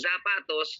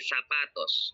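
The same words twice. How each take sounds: First: It starts with a buzzing z sound. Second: It starts with a hissing s sound. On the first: The speaker calls it wrong. "Instead of saying zapatos" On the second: The speaker calls it right. "just say zapatos"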